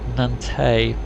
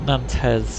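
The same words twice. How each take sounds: First: The final s sound is left silent. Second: The final s sound is pronounced. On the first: The speaker calls it right. "the French don't pronounce an S on the end of a word" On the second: The speaker calls it wrong. "Having pronounced that Nantes"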